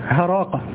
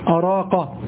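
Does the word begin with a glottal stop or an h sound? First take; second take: h sound; glottal stop. First: The word begins with an h sound. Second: The word begins with a glottal stop. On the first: "أن الهمزة قلبت هاء، هذا شاذ" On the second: "يأتي تسمع أراقة"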